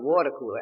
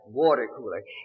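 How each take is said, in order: First: The R sounds are dropped. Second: The R sounds are clearly pronounced. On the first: The speaker calls it wrong. "drop them or make H's out of them" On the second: The speaker calls it right.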